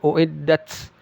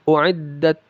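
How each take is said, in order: First: The final sound ends with an s-like hiss. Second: The final sound ends with a puff of air. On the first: The speaker calls it wrong. "Jangan seperti sin ya" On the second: The speaker calls it right. "udara atau angin yang keluar"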